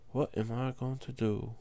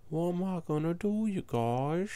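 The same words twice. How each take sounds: First: Said in the usual way. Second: A lightly changed, sing-song silly voice; odd put-on voice. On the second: Real, not acted. Player asking his viewers for help, silly put-on voice. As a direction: ask the viewers in a funny voice. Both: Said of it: "Why am I talking like that?".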